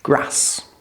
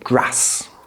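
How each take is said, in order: First: It is said in a different regional UK accent. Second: It is said in a different regional UK accent.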